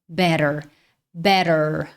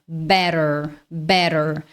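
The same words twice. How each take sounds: No difference in how they are said.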